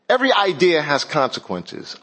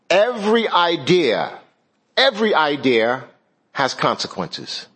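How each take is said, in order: First: No R sound is added after idea. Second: An R sound is added after idea. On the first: The speaker calls it right. "There's no R after idea" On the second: The speaker calls it wrong. "I said that wrong. Idea, it's not an R"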